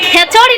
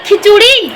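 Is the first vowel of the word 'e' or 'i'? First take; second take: e; i. First: The first vowel sounds like 'e'. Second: The first vowel sounds like 'i'. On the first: The speaker calls it wrong. "খেচড়ি নয়" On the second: The speaker calls it right. "বলো খিচুড়ি"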